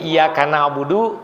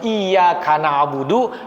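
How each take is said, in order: First: The y sound in the first word is short. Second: The y sound in the first word is doubled. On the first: Only the sun is worshipped. The speaker calls it wrong. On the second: Only God is worshipped. The speaker calls it right.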